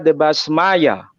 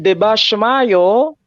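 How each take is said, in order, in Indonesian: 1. Ada bunyi 's' dan berakhir dengan 'a'. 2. Ada bunyi 'sh' dan berakhir dengan 'o'. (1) "Kalau Suryani Timur itu ... dibaca Debasmaya" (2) "versi Suryoyo bahasa Suryani Barat"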